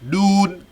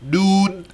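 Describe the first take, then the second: The two takes are said the same way.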